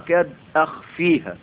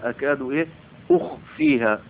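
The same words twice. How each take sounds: First: The verb begins with an a vowel. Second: The verb begins with a u vowel. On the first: Its matter is made to appear. "قرئين بالفتح" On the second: Its matter is kept hidden from people. "بضم الألف هكذا وضم الهمزة"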